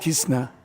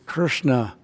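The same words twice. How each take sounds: First: The tongue stays low and flat in the middle. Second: The tongue presses up against the roof of the mouth. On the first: The speaker calls it wrong. "not Krishna" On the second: The speaker calls it right. "it's Krishna"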